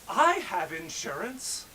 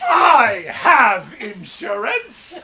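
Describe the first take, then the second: First: It is said in a calm, plain way. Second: It is said in a loud, animated way.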